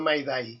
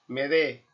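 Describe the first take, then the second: First: It is pronounced with English-like 'ai' vowel sounds. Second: It is pronounced with French-like vowels, ending in 'e'. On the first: The speaker calls it wrong. "no Maidai" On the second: The speaker calls it right. "pronunciada con la expresión francesa Maider, en español Medé"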